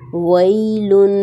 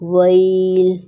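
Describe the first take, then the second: First: The word ends with an 'un' nasal ending. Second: The word ends on a bare 'l' sound.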